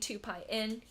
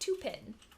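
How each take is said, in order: First: Pi and n are said as separate syllables. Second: Pi and n blend into the single word pin. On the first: "Instead of saying two pi in" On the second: "he would always say two pin"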